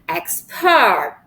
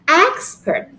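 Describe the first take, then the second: First: The stress is on the second syllable. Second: The stress is on the first syllable. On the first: The word is used as a verb. "when the word refers to a verb, we put the syllable in the second syllable" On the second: The word is used as a noun. "When the word refers to a noun, we put the stress in the first syllable"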